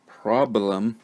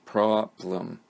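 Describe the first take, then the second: First: Said in the usual way. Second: "problem" split in two beats, prob, lem; syllable by syllable. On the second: Shown as a demonstration. Teacher showing this is two syllables, syllable by syllable. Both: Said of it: "This is two syllables".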